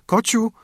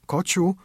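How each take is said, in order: First: Put-on a little girl calling urgently, pitch jumping up; eager call, higher. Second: Eager call. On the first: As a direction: dziewczynka woła wyżej i głośniej. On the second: Acted. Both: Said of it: "szybko i ze wzruszeniem".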